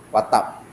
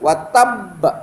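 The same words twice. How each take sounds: First: The b sound is short and single. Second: The b sound is held and doubled. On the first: The speaker calls it wrong. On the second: The speaker calls it right. "dia bukan qalqalah tu, dia sabdu"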